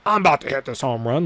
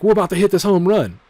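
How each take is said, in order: First: Said in the usual way. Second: Higher and louder hype call; stadium-sized we're about to hit this home run; hyped batter. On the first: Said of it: "some people walk out and go". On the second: Pretend. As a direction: pump up the crowd like a batter stepping up. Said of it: "I'm like".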